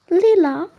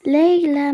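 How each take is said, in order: First: "Lila" said as lee-la, higher and louder; mispronounced name. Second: "Leila" said as lay-la, firm; correct pronunciation. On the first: Teacher mangling Leila's name as "Lila". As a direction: say "Lila" with the wrong vowel, lee-la. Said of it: "Bingo, elle s'est plantée". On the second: Leila correcting the teacher's pronunciation of "Leila". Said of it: "ça se prononce Leila". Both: Acted.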